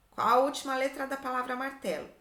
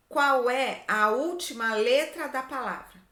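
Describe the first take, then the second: First: Said in the usual way. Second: Louder, measured question reading; deliberate reading out. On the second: Shown as a demonstration. Teacher reading the worksheet question to pupils, deliberate. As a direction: read the question out firmly, word by word.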